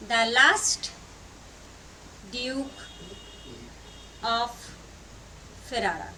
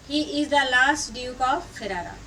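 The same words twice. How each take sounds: First: Long pauses between the words; halting pace of someone writing along; word-by-word dictation. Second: Said in the usual way. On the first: Real, not acted. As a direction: spell out the title one word at a time.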